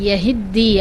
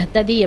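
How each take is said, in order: First: The t merges into a doubled d sound. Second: The t and d are said as separate sounds. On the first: "அந்த தாவை தாலோட மர்ஜ் பண்ணிட்டாங்க" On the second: "எஹ்ததி அப்படின்னு சொல்லும்போது ஹரக்கத் இருக்குது"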